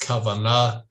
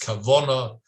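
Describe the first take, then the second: First: It has a plain Hebrew pronunciation with open vowels. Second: It has a Yiddish pronunciation with rounded vowels. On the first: "what is intention in Hebrew? It's kavanah" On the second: "if you say with a Yiddish intonation"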